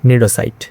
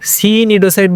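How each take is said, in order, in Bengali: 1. শব্দটি নীরব C ধ্বনি দিয়ে শুরু হয়। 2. শব্দটি উচ্চারিত C ধ্বনি দিয়ে শুরু হয়। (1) "সি এর উচ্চারণটা সাইলেন্ট থাকবে" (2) "সি নিডোসাইট বললাম না কেন"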